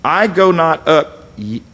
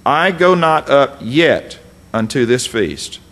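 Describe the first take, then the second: First: Said in the usual way. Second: "yet" ditekan, dibaca pelan; slow reading, underline "yet" with your voice; stress on yet. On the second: Shown as a demonstration. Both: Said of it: "underline the word yet".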